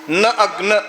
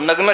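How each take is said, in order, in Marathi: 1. शब्द दोन वेगळ्या भागांत विभागून उच्चारला जातो. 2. शब्द अखंड एक एकक म्हणून उच्चारला जातो.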